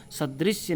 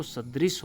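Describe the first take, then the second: First: सदृश्य with an added YA; Y glide closing सदृश्य; incorrect pronunciation. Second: सदृश ending on S; correct pronunciation. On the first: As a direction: say सदृश्य as "sadrisya". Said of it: "नहीं होता दोस्तों". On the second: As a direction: say सदृश as "sadris", no YA. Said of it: "सदृश होता है". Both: Shown as a demonstration.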